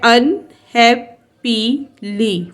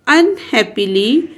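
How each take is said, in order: First: unhappily slowly in four beats, "अन, हैप, पी, ली"; split into syllables. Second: Said in the usual way. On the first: Shown as a demonstration. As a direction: pause after each syllable of unhappily. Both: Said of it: "four syllabus word है".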